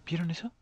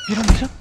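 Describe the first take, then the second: First: Said in the usual way. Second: High, very loud startled question; shocked shout. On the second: Real, not acted. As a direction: blurt it out loudly in alarm. Asks viewers after scare.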